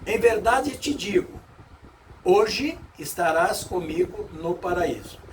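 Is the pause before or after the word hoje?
before. The pause comes before the word hoje.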